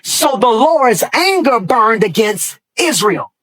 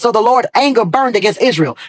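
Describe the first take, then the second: First: It is read slowly. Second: It is read at normal speed.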